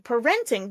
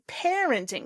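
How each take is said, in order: First: The stress is on a later syllable. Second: The stress is on the first syllable. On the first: The speaker calls it wrong. "I think you said parenting" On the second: The speaker calls it right. "it should be parenting. The syllable stress is on the same one"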